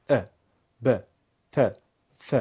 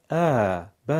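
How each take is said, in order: First: ا ب ت ف kept to one beat; correct short fatha. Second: ا ب dragged too long; overlong fatha, wrong. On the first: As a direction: say ا, ب, ت, ف short and done. (فتحهٔ درست و کوتاه) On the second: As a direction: demonstrate the mistaken extra stretch. (کشش اضافهٔ نادرست فتحه) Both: Shown as a demonstration. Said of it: "این کشش اضافه خطاست".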